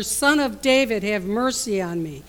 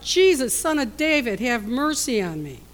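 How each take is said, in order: First: Yells louder. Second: Loud pleading cry, high on Jesus. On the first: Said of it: "sits and yells even louder". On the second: Blind beggar calling to Jesus over the crowd, pleading cry. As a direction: call out desperately over the crowd. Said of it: "he began to cry out". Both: Retold or imitated.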